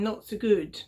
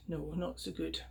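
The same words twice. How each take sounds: First: Said in the usual way. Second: "No, not so good" dropped to a hush; softer repeat. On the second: Acted. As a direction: murmur it to yourself. Piper repeats quietly.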